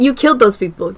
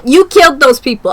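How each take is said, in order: First: Said in the usual way. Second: Louder, higher, KILLED hit with a falling tone; real heated accusation of the character. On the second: Real, not acted. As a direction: hammer "killed" home. Final loud accusation.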